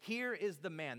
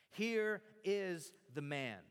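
First: Said in the usual way. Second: Drawn out and weighty, word by word; slow proclamation. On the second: Shown as a demonstration. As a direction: stretch out HERE and IS, proclaiming it. Repeats famous saying for weight.

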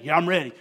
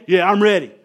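First: Said in the usual way. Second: Louder, pumped-up answer; louder pumped reply. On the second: Retold or imitated. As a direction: answer like you're fired up now. Leader answers coach's pep talk.

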